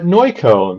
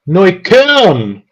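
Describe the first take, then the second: First: The K sound is barely pronounced. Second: The K sound is clearly pronounced.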